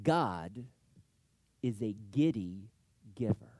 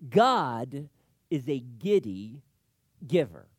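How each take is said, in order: First: Said in the usual way. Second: GOD hit loud, then giddy and giver set apart; emphatic repeat. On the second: Shown as a demonstration. Pastor repeating his key point to the congregation, emphatic.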